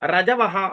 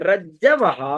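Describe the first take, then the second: First: The j sound is short and single. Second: The j sound is long and doubled. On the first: The speaker calls it wrong. "வேகமா படிக்கும் போது ரஜவஹா அப்படின்னு படிச்சிட முடியாது" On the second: The speaker calls it right. "அந்த இஜ்ஜு இருக்கிறதுனால ரஜ்ஜவஹா"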